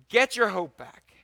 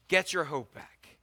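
First: "Get your hope back" louder and higher, punching Get; rallying call. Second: Said in the usual way. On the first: Acted. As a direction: lift it into a rousing exhortation.

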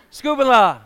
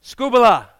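First: "Scubala" as SKOO-pa-la, loud; Greek word. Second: "Scubala" as SKOO-ba-la, loud; Greek word. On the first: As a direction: say "Scubala" once more, SKOO-pa-la. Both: Shown as a demonstration. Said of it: "The Greek word for rubbish".

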